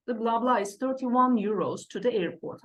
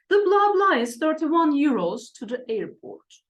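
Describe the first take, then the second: First: Said in the usual way. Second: Loud first reading. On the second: Shown as a demonstration. Teacher reads the example aloud, loud and high. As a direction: read it out high and loud, blanks as blah blah. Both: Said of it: "Okay, one".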